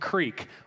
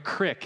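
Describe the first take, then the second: First: The word is said as 'creek'. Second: The word is said as 'crick'.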